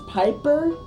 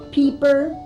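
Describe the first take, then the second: First: The first vowel sounds like 'eye'. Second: The first vowel sounds like 'ee'. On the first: This is the usual pronunciation. "it's normally it's it's pronounced as Piper, like Tom the Piper" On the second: This is the speaker's own pronunciation. "I pronounce it differently. So it's Peeper"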